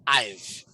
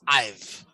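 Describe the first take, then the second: First: The words are reduced to one syllable. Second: The same.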